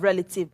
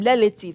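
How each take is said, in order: First: The word is said with a standard accent. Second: The word is said with an Igbo accent. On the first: "instead of" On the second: "when an Igbo man says"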